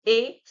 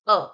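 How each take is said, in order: First: The word is said with an 'ay' vowel. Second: The word is said with a short 'uh' vowel. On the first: "sometimes ए" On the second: "sometimes अ"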